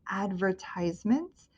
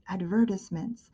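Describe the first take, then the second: First: It is said the American way. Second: It is said the British way.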